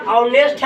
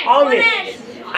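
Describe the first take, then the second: First: Said in the usual way. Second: ऑनेस्ट said slowly, drawn out, with a rising end; model pronunciation. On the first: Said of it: "इसको ऑनेस्ट नहीं पढ़ेंगे". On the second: Shown as a demonstration. Teacher tells pupils how to read ऑनेस्ट, slow and rising. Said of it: "क्या पढ़ेंगे".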